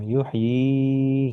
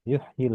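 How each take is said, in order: First: The final vowel is drawn out long. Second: The final vowel is short, linked into 'l'. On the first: This is the word said on its own. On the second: The word runs on into the next word.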